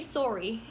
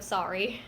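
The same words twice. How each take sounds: First: It is said with a Canadian vowel. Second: It is said with an American vowel. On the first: "clearly filmed in Canada because they say sorry" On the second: "instead of sorry"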